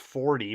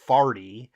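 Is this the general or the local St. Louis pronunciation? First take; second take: general; local. First: It uses the general American vowel. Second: It uses the local St. Louis vowel. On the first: The speaker calls it wrong. "You might think that's forty" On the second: The speaker calls it right. "but it's farty"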